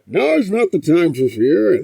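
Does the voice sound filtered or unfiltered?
filtered. The voice imitates a muffled, filtered mask sound.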